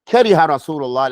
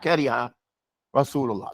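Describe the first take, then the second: First: The two words run together without a break. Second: The two words are split by a break. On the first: The speaker calls it right. "that's going to go together" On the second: The speaker calls it wrong. "It's not Kariha Rasulullah"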